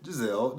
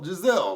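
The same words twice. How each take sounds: First: Said in the usual way. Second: Giselle punched high and loud, falling; emphatic name. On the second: Real, not acted. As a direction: hit Giselle hard, exasperated. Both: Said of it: "Giselle, Giselle, Giselle".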